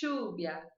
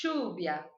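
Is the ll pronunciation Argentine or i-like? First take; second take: Argentine; Argentine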